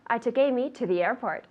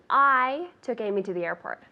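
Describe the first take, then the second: First: The word 'airport' is stressed. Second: The word 'I' is stressed. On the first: The question is where she was taken. "the last one" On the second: The question is who did the taking. "this is all depending on where I put the intonation"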